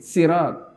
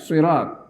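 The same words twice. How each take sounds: First: It begins with a light, plain s sound. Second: It begins with a heavy, emphatic s sound. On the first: "Ada yang baca pakai sin" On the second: "bisa dibaca pakai si, pakai shot ya"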